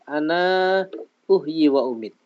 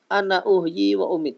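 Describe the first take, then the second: First: The final vowel of 'ana' is drawn out long. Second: The final vowel of 'ana' is cut short. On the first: This is the reading of the people of Medina. "bi isbatil alif wal maddi ... Bacanya gitu" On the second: This is the reading of everyone other than Medina. "dengan membuang alif. Jadi bacanya cepat. ... Cepat ya"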